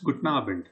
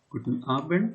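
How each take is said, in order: First: It is said in a casual, reduced everyday way. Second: It is said in full, carefully and formally. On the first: This is how people say it in daily speech. "becomes Guten Abend" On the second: This is the textbook way, not everyday speech. "Guten Abend becomes"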